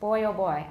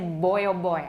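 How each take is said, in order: First: The first b is voiceless. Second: The first b is fully voiced. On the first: The speaker calls it right. "We usually don't voice b d g when they're the first sound of an utterance" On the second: The speaker calls it wrong. "I don't say ... It sounds kind of funny to me"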